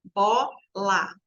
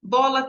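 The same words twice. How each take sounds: First: "Bola" split as Bo, la with a gap; syllable by syllable. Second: Said in the usual way. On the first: Shown as a demonstration. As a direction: count out both syllables of "Bola" separately. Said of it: "Bola tem quantas sílabas". ("Bola" separado em duas sílabas, com pausa) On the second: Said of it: "tem quantas sílabas".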